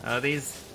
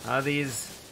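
Both takes have the same delivery.

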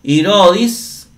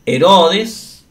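First: Irodis with an i sound in first and last syllables; Greek form of the name. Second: Herodes with an e sound in first and last syllables; Spanish form of the name. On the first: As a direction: say Irodis the Greek way, slowly, ee-RO-dees. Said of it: "lo vemos en los cursos de griego". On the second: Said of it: "nada más se traduce Herodes". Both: Shown as a demonstration.

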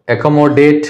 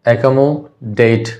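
First: Said in the usual way. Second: accommodate drawn out slowly, with the last syllable DATE set apart. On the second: Shown as a demonstration. Teacher dividing a word for students, syllable by syllable. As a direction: say accommodate slowly in parts, ekomo, then date. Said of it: "चार syllable का हो गया word".

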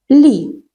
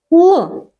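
First: Лі with a soft palatal L, like "lee". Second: Л as a hard, dark L. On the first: Teacher isolates the first sound of літак, soft L in лі. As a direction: sound out лі softened. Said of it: "Так, м'який". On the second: Teacher isolates the first sound of ложка, hard L in Л. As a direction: sound out Л with no softening. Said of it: "Так, твердий". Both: Shown as a demonstration.

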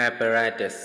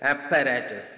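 First: Apparatus with a single light p, no doubling; apparatus, ungeminated p; correct English pronunciation. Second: Apparatus with a doubled, held pp; typical Malayali pronunciation. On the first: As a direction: say apparatus smoothly, no held p. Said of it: "രണ്ട് പ് sound ഒരുമിച്ച് വരുന്നുണ്ടെങ്കിലും കൂടുതലായി ഊന്നൽ നൽകേണ്ട". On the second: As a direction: lean hard on the pp in apparatus. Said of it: "എന്നാണ് pronounce ചെയ്യാറ്. അത് തെറ്റാണ്". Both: Shown as a demonstration.

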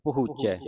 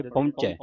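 First: ਪਹੁੰਚੈ as "pahoochai", no n; long oo, unnasalised. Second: ਪਹੁੰਚੈ as "pahunchai", with an n; common misreading, nasalised. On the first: Teacher models the correct ਪਹੁੰਚੈ, oo without nasal. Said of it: "ਇੱਥੇ ਦਲੈਂਕੜਾਂ ਲੱਗੀਆਂ ਹਾਹੇ ਨੂੰ". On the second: Teacher imitates the congregation's ਪਹੁੰਚੈ, nasalised. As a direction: put a nasal before the ch in ਪਹੁੰਚੈ. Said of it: "ਇਹਨੂੰ ਸੰਗਤਾਂ ਕੀ ਪੜ੍ਹ ਜਾਂਦੀ". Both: Shown as a demonstration.

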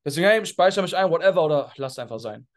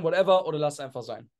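First: "whatever" dropped low and offhand, like you truly don't care; pointed indifference. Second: Offhand shrug. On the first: Coach replaying his memo to show it doesn't care, low offhand stress. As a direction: make "whatever, oder lass einfach sein" sound like a shrug. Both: Shown as a demonstration. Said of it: "ihr habt ja meine Betonung gemerkt".

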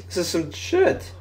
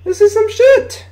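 First: Slow, much softer, under the breath; disgusted mutter. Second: Much higher, squeaky disbelief; outraged squeal. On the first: Gamer watching the other team drive, slow soft mutter. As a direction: grumble it to yourself. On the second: Gamer repeats the complaint at the screen, high outraged squeal. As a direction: shriek it like you can't believe it. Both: Real, not acted.

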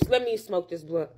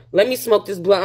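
First: Much softer, low mutter to self; quiet low aside to self; muttered quietly. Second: Said in the usual way. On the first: Real, not acted. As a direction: mumble it under your breath.

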